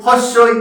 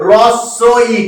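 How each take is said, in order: First: "হস্যই" begun with an audible h sound; wrong pronunciation. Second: "রস্য ই" starting on r with a doubled s; correct pronunciation. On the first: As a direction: say "হস্যই" as commonly mispronounced, starting on হ. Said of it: "হস্যই বলে কিচ্ছু হয় না". (হ দিয়ে শুরু করে ভুল উচ্চারণে "হস্যই") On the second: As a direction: say "রস্য ই" distinctly, with the h left silent. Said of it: "এর উচ্চারণটা কি হবে". (হ বাদ দিয়ে, স দুবার করে "রস্য ই") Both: Shown as a demonstration.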